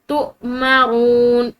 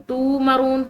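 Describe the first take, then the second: First: The vowel is cut short by a sharp catch. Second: The vowel is held long without a catch. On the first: The speaker calls it right. "झटके के साथ" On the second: The speaker calls it wrong. "ये गलत हो जाएगा"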